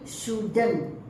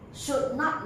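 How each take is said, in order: First: The words are joined into one contracted word. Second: Two separate words are said in full.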